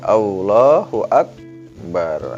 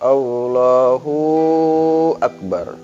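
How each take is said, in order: First: The two words join with nothing added. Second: The hu syllable is lengthened before akbar. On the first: The speaker calls it right. "tidak ada huruf wawu" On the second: The speaker calls it wrong. "wawu mati jadi panjang hu-nya"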